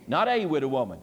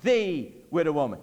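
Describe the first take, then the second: First: "a" in "not a widow woman" stressed. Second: "the" in "the widow woman" stressed; emphatic the. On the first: Preacher repeating the contrast, stressing "a". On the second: Preacher to church, emphatic on "the". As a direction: hit "the" in "the widow woman" hard. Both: Shown as a demonstration. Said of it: "Very emphatic".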